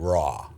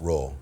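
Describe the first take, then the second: First: The word is said plainly, without a growl. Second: The word is growled like a roaring animal. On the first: It is the title of the show. The speaker calls it right. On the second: It imitates a lion's roar. The speaker calls it wrong.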